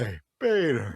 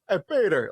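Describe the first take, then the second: First: It is said in a sultry, suggestive voice. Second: It is said in a plain, ordinary voice.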